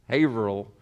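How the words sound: The middle H sound is dropped. This is the New England way of saying it. "they like to drop stuff in New England"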